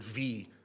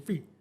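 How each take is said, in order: First: The V sound is pressed out heavily. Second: The V sound is said lightly and softly. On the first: The speaker calls it wrong. "He's not gonna say the word V very heavily" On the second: The speaker calls it right. "He's gonna say V"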